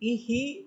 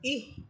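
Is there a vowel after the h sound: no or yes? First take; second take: yes; no. First: An extra vowel follows the h sound. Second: The h sound is held with no vowel. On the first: The speaker calls it wrong. "ইহ না বলে ইহি বলেন ... তখন এটাও ভুল হয়" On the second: The speaker calls it right. "ইহ হামসা হাকে গিয়ে ধরে ফেলবে"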